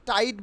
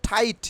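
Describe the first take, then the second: First: টাইট with unaspirated T; wrong-way example. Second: টাইট with aspirated T; corrected pronunciation. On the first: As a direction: puffless টাইট. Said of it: "বলবো না". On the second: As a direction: puff the opening of টাইট. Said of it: "আমরা কি বলবো?". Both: Shown as a demonstration.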